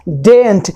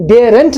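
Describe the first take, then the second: First: Daren't as one syllable with silent r, DAYNT; correct pronunciation. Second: Daren't in two syllables, DARE-unt; wrong pronunciation. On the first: Teacher corrects the mistake, daren't pronounced properly. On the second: Teacher shows what not to say, daren't mispronounced. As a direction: say "daren't" with the r sounded and an extra beat. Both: Shown as a demonstration. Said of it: "daren't नहीं होता".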